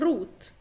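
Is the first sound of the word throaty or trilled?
trilled. The first sound is a trilled r. This is a regional form, as in Austria. "حد بقى يجي يقول لي لا هي روت"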